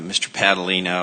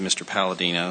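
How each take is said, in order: First: The name is said with d before the l. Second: The name is said with l before the d. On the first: The speaker calls it right. "I mispronounced your name. My apologies" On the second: The speaker calls it wrong. "I said"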